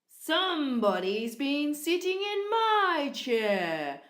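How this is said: It is growled in a low daddy voice.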